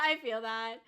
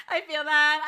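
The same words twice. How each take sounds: First: Said in the usual way. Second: Laughing. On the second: Real, not acted. Laughing at a chat comment.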